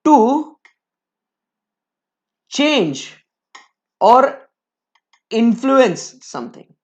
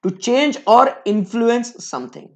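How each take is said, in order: First: Slow dictation. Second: Slow, flowing repeat of the phrase. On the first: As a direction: pause between every word. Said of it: "teacher dictating definition". ("To change or influence something" रुक-रुक कर लिखवाना) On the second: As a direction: repeat it slowly for the notes. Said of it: "repeat of definition". ("to change or influence something" धीरे दोहराना) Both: Shown as a demonstration.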